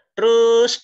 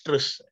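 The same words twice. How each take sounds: First: A sudden loud "Terus," cutting him off; loud dismissive retort. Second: Said in the usual way. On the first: Acted. Jesus brushing off Peter's boast with a loud call.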